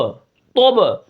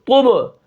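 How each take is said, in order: First: The vowel is an o-like sound. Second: The vowel is a clear short u sound. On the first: The speaker calls it wrong. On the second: The speaker calls it right.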